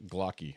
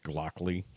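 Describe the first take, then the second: First: The last syllable has no L sound. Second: The last syllable has an added L sound. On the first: The speaker calls it right. "I said it right" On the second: The speaker calls it wrong. "I keep wanting to throw a second L in there"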